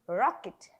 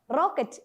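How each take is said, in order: First: The R is said like a native English speaker. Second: The R is said like the Malayalam letter Ra. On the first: The speaker calls it right. "native speakers pronounce it as R" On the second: The speaker calls it wrong. "We Malayalis pronounce this letter very badly"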